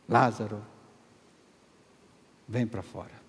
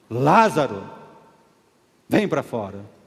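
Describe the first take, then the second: First: It is said in a normal voice. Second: It is shouted loudly, as a command.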